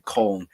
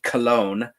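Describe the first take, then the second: First: The name is said in its German form. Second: The name is said in its English form. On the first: "but it's Köln with a K" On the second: "We English people pronounce it Cologne"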